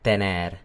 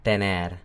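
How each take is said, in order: The two takes are said the same way.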